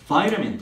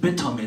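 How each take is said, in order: First: It is said in an American accent, 'vai-ta-min'. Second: It is said in a British accent, 'vi-ta-min'. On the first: "비타민의 영어 발음이 뭐예요? 이거 vitamin" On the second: "물론 영국 영어는 비타민이라고도 해요"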